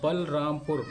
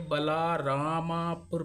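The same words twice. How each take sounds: First: Said in the usual way. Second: बलारामापुर drawn out, long "aa" after ल and म; misread with added vowels. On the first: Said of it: "बलरामपुर में तीन syllable है". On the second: Shown as a demonstration. Teacher warning of misreading without syllables, बलारामापुर with drawn-out extra vowels. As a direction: stretch बलारामापुर slowly, adding an "aa" to बल and राम. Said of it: "तो इसे बलारामापुर पढ़ा जाएगा".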